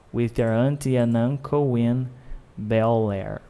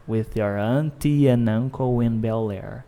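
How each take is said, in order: Both takes have the same delivery.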